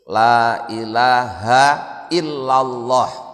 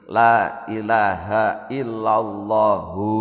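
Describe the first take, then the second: First: The final h is said with no following vowel. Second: The final h is followed by an u vowel. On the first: "kemudian hak yang kedua disukun" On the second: "tidak disukun tapi dibaca dhammah"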